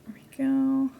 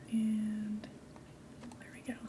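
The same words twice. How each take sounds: First: Said in the usual way. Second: Soft hushed whisper. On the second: Shown as a demonstration. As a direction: breathe it in a whisper. Repeats phrase in a whisper.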